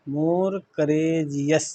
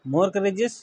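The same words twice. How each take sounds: First: Very slow, stretched "more courageous"; drawn-out teaching repeat of "more courageous"; syllable-by-syllable. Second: Said in the usual way. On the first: Shown as a demonstration. Teacher breaks the word up slowly.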